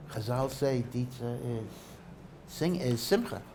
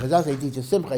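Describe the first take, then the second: First: Said in the usual way. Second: Rushed, louder self-correction after a slip; quick correction. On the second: Real, not acted. Teacher quickly correcting his slip to the class, rushed and louder. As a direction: fix the slip fast, pushing ahead. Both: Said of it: "I'm sorry".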